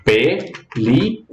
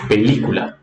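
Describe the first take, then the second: First: PELÍCULA very slowly as PE, LI, CU, LA; split into syllables. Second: Said in the usual way. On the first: Shown as a demonstration. Teacher counting out syllables for learners, PELÍCULA said syllable by syllable. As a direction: break PELÍCULA into four separate syllables with pauses. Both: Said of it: "Quais são as sílabas?".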